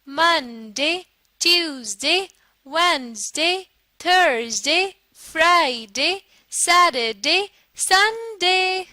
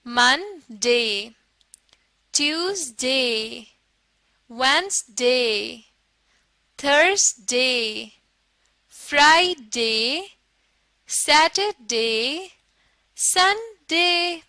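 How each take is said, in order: First: The days are read fast. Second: The days are read slowly.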